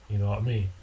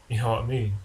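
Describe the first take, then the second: Both takes have the same delivery.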